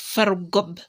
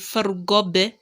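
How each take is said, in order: First: The final b is closed off with no echo. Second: The final b is released with a slight echo. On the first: The speaker calls it wrong. "not just fargob" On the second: The speaker calls it right. "you make the qalqala"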